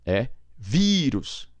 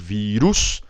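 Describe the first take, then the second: First: The stress is on the first syllable. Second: The stress is on the last syllable. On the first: The speaker calls it right. "Eu tenho que colocar acento" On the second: The speaker calls it wrong. "a tônica natural é a um... o U está mais forte, não"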